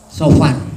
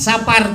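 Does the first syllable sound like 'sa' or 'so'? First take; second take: so; sa. First: The first syllable has an 'o' vowel. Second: The first syllable has an 'a' vowel. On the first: The speaker calls it right. "tapi Sofar" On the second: The speaker calls it wrong. "bukan Sapar"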